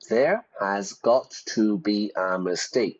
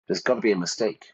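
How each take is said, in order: First: Every word is said fully, without contractions. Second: The words are squeezed into contracted, reduced forms. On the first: The speaker calls it wrong. "native speakers don't say there has got to be a mistake" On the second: The speaker calls it right. "we try to squeeze the sentences"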